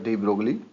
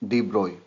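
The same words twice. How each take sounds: First: The name is said with an English pronunciation. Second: The name is said with a French pronunciation. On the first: "but we will uh, pronounce here de Broglie" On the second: "in French it is pronounced as de Broglie"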